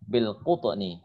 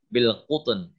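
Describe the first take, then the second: First: The word ends with a short i vowel. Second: The word ends on a bare n sound.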